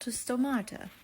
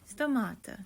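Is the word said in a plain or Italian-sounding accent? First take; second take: plain; Italian. First: It is said in the speaker's plain accent. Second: It is said in a put-on Italian accent.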